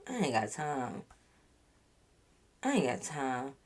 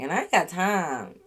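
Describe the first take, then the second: First: Much softer and lower, trailing off; fading dismissal. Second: Said in the usual way. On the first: Real, not acted. Vlogger fading out her dismissal of the liar, soft and low. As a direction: let it die away, done with him.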